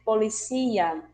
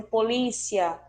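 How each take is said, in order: First: "policia" com a tônica no "cí", poliCÍa; policía em espanhol. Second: "polícia" com a tônica no "lí"; polícia em português. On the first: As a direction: diga poli-CÍ-a. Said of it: "em espanhol vamos ter". (pronúncia espanhola, forte no "cí") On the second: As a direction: acentue poLÍcia. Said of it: "o que se pronuncia de um jeito em português". (polícia à brasileira, forte no "lí") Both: Shown as a demonstration.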